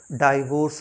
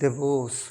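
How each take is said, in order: First: The first syllable is 'dai'. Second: The first syllable is 'di'. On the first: The speaker calls it wrong. "डाइवोर्स नहीं" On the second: The speaker calls it right.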